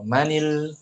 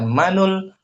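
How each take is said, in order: First: The words are linked with an i vowel. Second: The words are linked with a u vowel. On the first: The speaker calls it right. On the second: The speaker calls it wrong.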